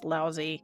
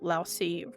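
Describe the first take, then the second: First: The middle consonant is a buzzing 'z' sound. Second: The middle consonant is a hissing 's' sound. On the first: This is how people usually say it today. "the Z sound that we tend to put on it now" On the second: This is how a narrator said it in a reading. "pronounced it with the S"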